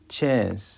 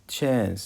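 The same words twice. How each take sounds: The two takes are said the same way.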